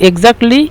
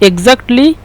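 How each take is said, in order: No difference in how they are said.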